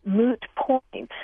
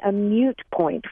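First: "moot point" with a plain oo in moot; "moot point", no y-glide in the first word; standard pronunciation. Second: "mute point" with a y-glide, myoot; "mute point" in place of moot, y sound after the m; common mispronunciation. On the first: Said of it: "but that is incorrect". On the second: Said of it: "a lot of people, uh, are saying". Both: Shown as a demonstration.

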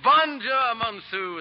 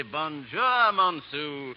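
First: "Bonjour, Monsieur" with a showy French nasal lilt, higher and louder; French greeting. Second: Said in the usual way. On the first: Acted. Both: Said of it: "as the French say".

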